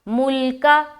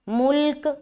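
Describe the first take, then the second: First: The word ends with a short vowel. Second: The word ends on a bare consonant. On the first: The reader continues without stopping. "अगर आप स्टॉप नहीं होते तो मुल्का पढ़ेंगे" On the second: The reader stops at this word. "यहाँ पर स्टॉप करेंगे तो मुल्क"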